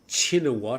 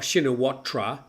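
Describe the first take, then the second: First: It starts with ch and ends with -wat. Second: It starts with sh and ends with -tra. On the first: The speaker calls it right. "I usually say now Chinawat. Apparently the sh sound is not correct. It should be a ch sound" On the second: The speaker calls it wrong. "I thought we pronounced it oh, Shinawatra. That's how it's spelled"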